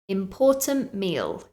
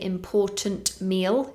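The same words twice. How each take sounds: First: The t in important is dropped. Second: The t in important is pronounced. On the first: The speaker calls it right. "I dropped the t sound. So it sounded important meal" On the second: The speaker calls it wrong. "We don't say important meal"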